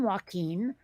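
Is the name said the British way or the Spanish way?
Spanish. The name is said with Spanish pronunciation. The speaker calls it right. "That's a Spanish name"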